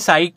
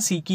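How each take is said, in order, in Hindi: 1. यह एक अक्षर की तरह बोला जाता है, जैसे 'sike'। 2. यह दो अक्षरों की तरह बोला जाता है, जैसे 'see-kee'। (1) "इसे साइक भी आप बोल सकते हो" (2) "इसका करेक्ट प्रोनाउंसिएशन सीकी होता है"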